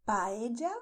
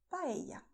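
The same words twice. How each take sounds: First: "Paella" said pa-e-ja, loud. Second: "paella" said pa-e-ya. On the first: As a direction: give "Paella" an English j for the ll. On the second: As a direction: soften the ll of "paella" to y. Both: Shown as a demonstration. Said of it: "Both are correct".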